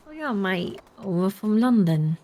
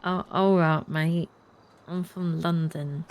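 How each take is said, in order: First: London accent with an unmoving tongue; coached London accent. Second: First clumsy go at a London accent; attempted London accent. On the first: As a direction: imitate a Londoner, tongue held still, drawn out. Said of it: "speak like your tongue doesn't move". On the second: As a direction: imitate a Londoner, drawing out the place name. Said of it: "I'm trying to do your accent". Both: Shown as a demonstration.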